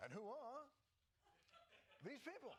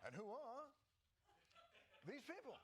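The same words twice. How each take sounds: First: It is said in an exaggerated impression voice. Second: It is said in an exaggerated impression voice.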